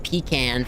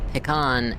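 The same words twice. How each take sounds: First: It is pronounced in the rural Southern way. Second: It is pronounced in the refined Southern way. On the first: The speaker sounds rural and plain. "pecan for hillbillies" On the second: The speaker is trying to sound upper class. "pecan if you're trying to sound upper class"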